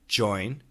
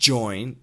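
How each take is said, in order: First: It begins with one clear single J sound. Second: It begins with a D blended into a Z. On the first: "So just the pure J" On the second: "The D Z"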